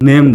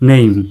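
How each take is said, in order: First: The vowel is a plain e sound. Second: The vowel glides from e to i. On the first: The speaker calls it wrong. "বলি নেম না বলে" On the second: The speaker calls it right. "বলবেন নেইম"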